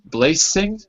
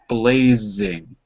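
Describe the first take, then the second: First: The middle consonant is a voiceless S sound. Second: The middle consonant is a voiced Z sound. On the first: The speaker calls it wrong. "which doesn't exist" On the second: The speaker calls it right. "There's no S in blazing. It's a Z"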